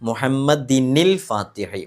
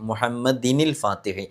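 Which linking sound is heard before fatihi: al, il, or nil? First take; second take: nil; nil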